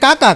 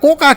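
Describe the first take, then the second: First: The first vowel is an open 'a' sound. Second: The first vowel is a rounded 'o' sound. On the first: This is the speaker's own local form. "આપણે દાખલા તરીકે કાકા કહી" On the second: This is how people from another region say it. "Mehsana વાળા કોકા કહે"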